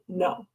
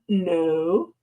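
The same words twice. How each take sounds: First: It is said flatly and firmly. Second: It is said smiling and lightly.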